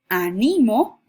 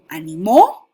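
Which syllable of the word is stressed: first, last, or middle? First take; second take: middle; last. First: The stress is on the middle syllable. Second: The stress is on the last syllable. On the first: "como grave" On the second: "como aguda"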